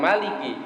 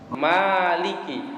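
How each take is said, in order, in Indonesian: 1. Vokal pertama dibaca pendek. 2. Vokal pertama dibaca panjang. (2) "ditambahin alif"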